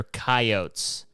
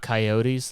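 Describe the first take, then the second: First: "coyotes" said as KAI-ohts, no ee at the end; two-syllable pronunciation. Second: "coyotes" said as kai-OH-teez, ending in an ee sound; three-syllable pronunciation. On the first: Speaker teaching listeners the farm word, "coyotes" as KAI-ohts. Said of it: "Learn that". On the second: Speaker mocking how losers say it, "coyotes" as kai-OH-teez. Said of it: "like some fucking loser". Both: Shown as a demonstration.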